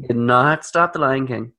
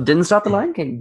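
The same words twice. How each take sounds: First: "not" set apart and stressed in full. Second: Said in the usual way. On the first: Real, not acted. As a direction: punch the word "not". Restates contraction for emphasis.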